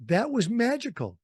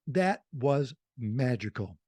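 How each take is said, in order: First: Higher and livelier on "magical"; bright. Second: Slow sincere. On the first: Remembering the Santa show, lifted and delighted. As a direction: say it with a lift of delight. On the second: Repeating it to his host, slow and heartfelt. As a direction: let it sink in, meaning it. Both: Real, not acted. Fond memory of radio idols.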